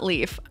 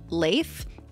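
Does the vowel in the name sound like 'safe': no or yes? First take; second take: no; yes. First: The vowel differs from the vowel in safe. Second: The vowel sounds like the vowel in safe. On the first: The speaker calls it wrong. "not Leif. I know it looks like it, but it's not" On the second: The speaker calls it right. "supposed to be pronounced like safe, but with an L"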